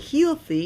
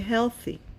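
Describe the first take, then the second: First: The first vowel is a long ee sound. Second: The first vowel is a short eh sound. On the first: The speaker calls it wrong. "You don't say healthy" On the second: The speaker calls it right. "you say healthy"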